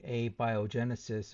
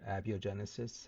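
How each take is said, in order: First: "abiogenesis" starting AY-bye-oh, with a long A; long-A pronunciation. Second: "abiogenesis" starting AB-ee-oh, with a short A; short-A pronunciation. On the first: Offering viewers one pronunciation option, "abiogenesis" said with a long-A AY-bye-oh start. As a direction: say "abiogenesis" as ay-bye-oh-JEN-uh-sis. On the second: Offering viewers the other option, "abiogenesis" said with a short-A AB-ee-oh start. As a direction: say "abiogenesis" as ab-yo-JEN-uh-sis, lower and softer. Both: Shown as a demonstration. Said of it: "however way you wanna pronounce it".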